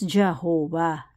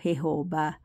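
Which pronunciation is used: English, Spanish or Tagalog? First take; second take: English; Tagalog. First: It is pronounced the English way. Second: It is pronounced the Tagalog way. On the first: "Pero po in English yon is" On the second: "Sa Tagalog po"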